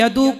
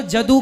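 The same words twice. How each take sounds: First: "यदु" begun with a y glide; standard pronunciation. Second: "जदु" begun with j in place of y; variant pronunciation. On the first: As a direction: say "यदु" with an initial y sound. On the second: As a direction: say "जदु" with a hard initial j. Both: Shown as a demonstration. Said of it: "अब कहीं यदु को जदु कह दे".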